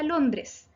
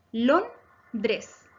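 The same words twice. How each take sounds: First: Said in the usual way. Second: "Londres" broken as Lon, pause, dres; teacher dividing "Londres" into its syllables. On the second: Shown as a demonstration. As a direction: split "Londres" into two separate beats. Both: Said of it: "Se divide también en dos sílabas".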